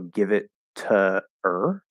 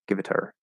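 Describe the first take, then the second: First: The phrase is spoken slowly with the h dropped. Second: The phrase is spoken quickly with the h dropped. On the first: The speaker calls it wrong. "If you're speaking more slowly and you say like" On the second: The speaker calls it right. "You can sort of drop that H if you're speaking quickly"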